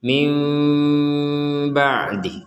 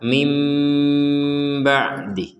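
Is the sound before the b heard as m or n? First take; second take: m; m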